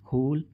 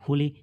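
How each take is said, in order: First: The word ends on the consonant with no vowel. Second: An extra vowel is sounded after the final consonant. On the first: The speaker calls it right. "क्या पढ़ते हैं?" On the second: The speaker calls it wrong. "इस प्रकार से नहीं पढ़ते ना"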